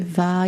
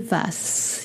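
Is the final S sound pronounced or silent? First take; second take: silent; pronounced. First: The final s sound is silent. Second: The final s sound is pronounced. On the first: The speaker calls it right. "you say va" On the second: The speaker calls it wrong. "You don't say vas"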